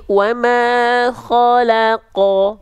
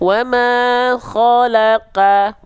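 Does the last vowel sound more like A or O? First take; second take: O; A. First: The last vowel sounds like a thick O. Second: The last vowel sounds like a thin A. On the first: The speaker calls it right. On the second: The speaker calls it wrong.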